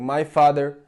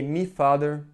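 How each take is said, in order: First: The first word sounds like 'my'. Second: The first word sounds like 'me'. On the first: "in Brazil, we have been taught to say" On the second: "here they say"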